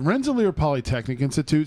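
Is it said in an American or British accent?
American. It is said in a plain American accent.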